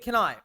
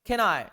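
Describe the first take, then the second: First: The two words are joined into one sound. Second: The same.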